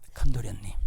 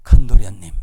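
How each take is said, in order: First: Softer second call. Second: Servant calling out. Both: Acted. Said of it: "종이 쪼르륵 달려가서".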